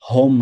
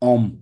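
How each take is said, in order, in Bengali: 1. শব্দটি একটি 'h' ধ্বনি দিয়ে শুরু হয়। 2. শব্দটি সরাসরি একটি স্বরবর্ণ দিয়ে শুরু হয়। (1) "হোম না"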